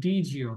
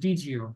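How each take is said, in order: First: The two words blend into one reduced form. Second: The same.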